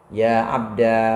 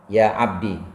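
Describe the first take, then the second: First: The word ends in a long a vowel. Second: The word ends in a short i vowel. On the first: "menetapkan alif sebagai ganti ya mutakalim" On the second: "dengan membuang ya mutakalim"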